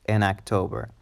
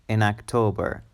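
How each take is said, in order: Both takes have the same delivery.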